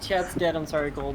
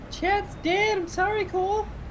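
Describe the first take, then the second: First: It is said in a normal voice. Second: It is said in a high-pitched voice.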